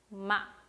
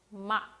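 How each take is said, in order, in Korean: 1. 음절이 짧고 날카롭게 끊깁니다. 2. 음절이 짧고 날카롭게 끊깁니다.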